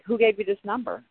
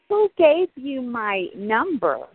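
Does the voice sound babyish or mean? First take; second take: mean; babyish. First: It is said in a mean, harsh voice. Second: It is said in a small, babyish voice.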